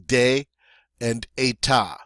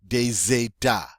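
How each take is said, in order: First: The words are separate, with no z sound. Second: A z sound links the two words. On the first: "Normally, these words separately would separately would be des and état" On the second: "we're going to now take this silent S and actually pronounce it, um, but it's going to have a Z sound"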